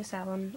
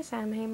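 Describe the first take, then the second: First: Samhain said as "SOW-en"; alternative Samhain pronunciation. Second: Samhain said as "sam-hayn"; usual Samhain pronunciation. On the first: Telling viewers her other habit, Samhain as "SOW-en". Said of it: "I do say Samhain often as well". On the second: Telling viewers her habit, Samhain as "sam-hayn". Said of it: "I say Samhain most of the time". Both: Shown as a demonstration.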